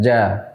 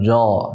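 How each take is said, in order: First: The syllable is thin, with a light open vowel. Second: The syllable is thick, with a heavy rounded vowel. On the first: The speaker calls it right. "Tapi jim kita ucapkannya ja" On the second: The speaker calls it wrong. "bukan jo, ndak ya"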